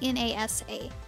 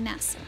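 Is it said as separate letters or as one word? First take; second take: letters; word. First: Each letter is spoken separately. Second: It is spoken as one word. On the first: "You're not saying N-A-S-A" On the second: "you're saying NASA"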